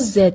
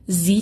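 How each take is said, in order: First: The letter is said as 'zed'. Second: The letter is said as 'zee'. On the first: "توی انگلیسی بریتیش ... زد تلفظ میشه" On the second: "توی انگلیسی آمریکایی زی تلفظ میشه"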